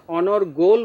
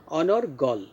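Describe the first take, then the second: First: অনর্গল with a closed o, onor-gol; wrong pronunciation. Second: অনর্গল with an open aw, onor-gawl; correct pronunciation. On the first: Teacher shows what not to say, wrong closed o. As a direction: round the last vowel of অনর্গল to gol. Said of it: "অর্থাৎ অনর্গল বলবো না". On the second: Teacher gives the right form, open final vowel. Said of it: "গলের শেষে কিন্তু অ আছে". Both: Shown as a demonstration.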